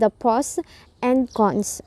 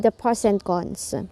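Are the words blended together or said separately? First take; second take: separately; blended. First: Each word is said separately, not linked. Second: Word endings blend smoothly into following words. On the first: The speaker calls it wrong. "instead of" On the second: The speaker calls it right. "it will be"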